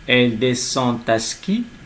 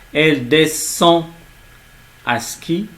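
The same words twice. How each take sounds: First: A T sound links descend to à. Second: Descend and à are said without a linking T. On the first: The speaker calls it wrong. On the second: The speaker calls it right.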